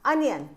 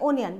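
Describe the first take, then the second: First: The first vowel sounds like 'uh'. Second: The first vowel sounds like 'oh'. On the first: The speaker calls it right. "ओ से हमारा हो गया आपका अनियन" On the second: The speaker calls it wrong. "But it is also wrong"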